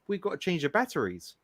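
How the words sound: It is said in an American accent.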